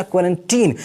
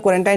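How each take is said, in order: First: Put-on क्वारंटीन ending in a long "ee-n" sound, as "-teen"; corrected pronunciation. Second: क्वारंटाइन ending in a long "eye-n" sound, as "-tine"; common mispronunciation. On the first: Teacher correcting students' pronunciation, क्वारंटीन said with a "-teen" ending. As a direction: say क्वारंटीन with the last syllable rhyming with "seen". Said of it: "इसका actual pronunciation होता है".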